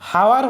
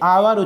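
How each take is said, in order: First: The word starts with an h sound. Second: The word starts with a vowel sound. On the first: The speaker calls it wrong. "এখানে হাওয়ার হচ্ছে না" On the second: The speaker calls it right. "আওয়ার উচ্চারণ হচ্ছে"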